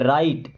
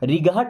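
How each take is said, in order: First: The g and h are silent inside the word. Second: The g and h are sounded inside the word. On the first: The speaker calls it right. "जी और H होता है silent" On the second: The speaker calls it wrong. "रिगाहट नहीं पढ़ते"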